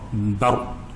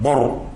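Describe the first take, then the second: First: The vowel is an open 'a' sound. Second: The vowel is a rounded 'o' sound. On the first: The speaker calls it right. "yang tebal ra, bar" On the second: The speaker calls it wrong. "bukan bor"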